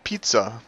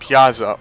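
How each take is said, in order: First: The word is squeezed to sound like pizza. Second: The word is said in its full form.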